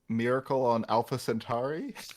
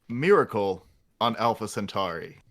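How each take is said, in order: First: It is said tentatively, like an unsure question. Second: It is said firmly, like a confident statement. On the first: The speaker is offering a tentative suggestion. The speaker calls it wrong. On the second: The speaker is firmly proposing the title. The speaker calls it right.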